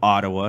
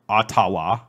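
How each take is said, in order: First: It is said in a plain English accent. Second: It is said in a Spanish-style accent.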